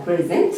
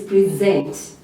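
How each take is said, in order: First: The noun "present", stressed on PRE; PRE-zent, as in a gift; stress on first syllable. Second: The verb "present", stressed on ZENT; pre-ZENT, as in presenting to an audience; stress on second syllable. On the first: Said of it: "this is a noun". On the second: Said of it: "putting stress on the second part". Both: Shown as a demonstration.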